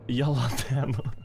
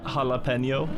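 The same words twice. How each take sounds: First: It is pronounced the Norwegian way. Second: It is pronounced the English way. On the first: "in Norwegian conversation, you just say jalapeno" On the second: "I say it like that in English"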